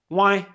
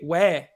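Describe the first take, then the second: First: It sounds like the English word 'why'. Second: It has the standard French 'way' sound. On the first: "here in Quebec en Québécois, ... We say why" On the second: "we don't say ouais"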